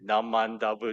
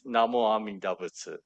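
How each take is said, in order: First: The phrase is run together into a shortened form. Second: Every syllable of the phrase is said in full. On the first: This is a simplified, commonly accepted everyday form. The speaker calls it wrong. "it has been simplified. So people say Namandabu" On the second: This is the complete formal recitation. The speaker calls it right. "the proper is Namo Amida Butsu"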